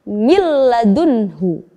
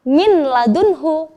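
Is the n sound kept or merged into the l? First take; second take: merged; kept. First: The n sound merges fully into the l. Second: The n sound is heard before the l. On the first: The speaker calls it right. "dileburkan ke huruf lam dan tanpa disertai dengung" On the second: The speaker calls it wrong. "kita tidak boleh membaca min ladunhu"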